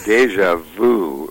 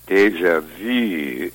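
First: The last vowel sounds like English 'oo'. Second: The last vowel is the rounded French 'u'. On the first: It would mean 'already you'. The speaker calls it wrong. "would mean already you" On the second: It means 'already seen'. The speaker calls it right. "round your lips for O, but pronounce E, and you will get E, the French U"

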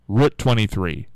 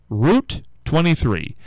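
First: The word route rhymes with out. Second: The word route rhymes with boot. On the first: This is how people up north say it. "most people up here, I think, would say route. I don't think we would say root" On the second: This is how people further south say it. "some people say route"

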